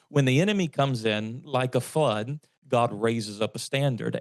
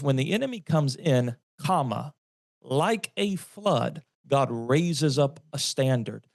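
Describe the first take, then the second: First: The break comes after 'like a flood'. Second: The break comes after 'comes in'.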